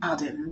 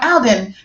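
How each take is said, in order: First: It is said with a British-sounding accent. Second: It is said with an American-sounding accent.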